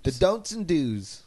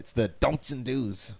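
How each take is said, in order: First: Slow, drawn-out sultry voice; sexy voice. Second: Slow tough-guy growl; bruiser voice. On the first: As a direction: purr it slow and seductive. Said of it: "Mister Boom's sexy voice". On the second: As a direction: drag it out like a bruiser. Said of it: "'cause he's ... like a bruiser". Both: Acted.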